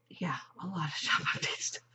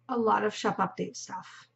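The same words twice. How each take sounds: First: Giggly whisper. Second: Said in the usual way. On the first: Pretend. Repeats phrase, then whispers it.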